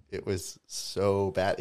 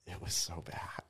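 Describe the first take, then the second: First: "so" slow, drawn out and voiced; slow, emphatic "so". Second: Near-whispered verdict; hushed, confiding aside; hushed emphasis. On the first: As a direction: stretch "so" for emphasis. Repeats verdict for emphasis. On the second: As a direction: say it under your breath. Dwelling on an awful set. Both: Real, not acted.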